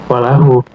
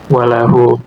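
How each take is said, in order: The two takes are said the same way.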